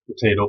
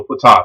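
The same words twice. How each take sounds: First: "Potato" with a long A, puh-TAY-toh. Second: "potato" with an AH vowel, puh-TAH-toh. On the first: Teacher shrugging off variant pronunciations, "Potato" as puh-TAY-toh. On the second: Teacher joking about variant pronunciations, "potato" as puh-TAH-toh. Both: Shown as a demonstration. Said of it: "Some people say".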